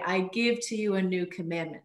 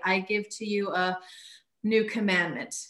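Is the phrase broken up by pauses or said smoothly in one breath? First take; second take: one breath; broken up. First: The phrase flows together in one breath. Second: The phrase is broken up by pauses. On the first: The speaker calls it right. "I would say" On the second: The speaker calls it wrong. "I wouldn't say"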